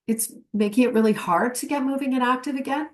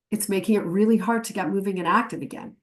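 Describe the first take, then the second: First: "again" rising at the end like a question; rising question tune. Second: "again" falling at the end as a statement; quicker take, letting the end drop; falling statement tune. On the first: Trainer contrasting question and statement endings, rising. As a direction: let the end lift as if asking. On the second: Trainer contrasting question and statement endings, falling. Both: Shown as a demonstration. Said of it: "your voice goes up or down at the end".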